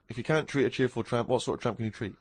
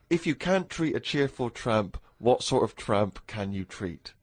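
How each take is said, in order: First: It is said quickly, like a tongue twister. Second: It is said at a normal, unhurried speed.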